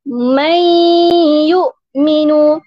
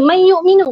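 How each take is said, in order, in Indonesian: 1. Dengung sengau ditahan selama dua ketukan. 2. Dengung sengau dipendekkan. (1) "Kita akan sebut macam mana?" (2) "Kalau pendek tak boleh ke? ... tak boleh"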